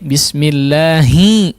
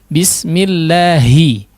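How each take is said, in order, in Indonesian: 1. Suku kata terakhir bocor udara lewat hidung. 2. Suku kata terakhir keluar murni dari mulut. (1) "khasyumnya bermain" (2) "dihaluskan ya, ... betul-betul pure dari apa, rongga mulut"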